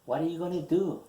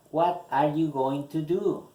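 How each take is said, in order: First: "gonna" run together as one quick reduced word; forme contractée. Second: Careful, higher and louder model question; articulation soignée. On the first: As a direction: say "What are you gonna do?" linked, with "gonna" for going to. Same question repeated in contracted form. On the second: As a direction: sound out every word of "going to do" for learners. Reads model question carefully for learners. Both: Shown as a demonstration.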